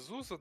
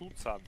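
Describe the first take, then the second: First: The name begins with a z sound. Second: The name begins with a ts sound. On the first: "это как английское произношение" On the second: "А в немецком Z, вот это Z, это считается как C"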